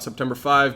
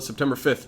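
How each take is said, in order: First: The number is said as the cardinal five. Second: The number is said as the ordinal fifth. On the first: The speaker calls it wrong. "not September fifth" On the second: The speaker calls it right. "I called it September fifth"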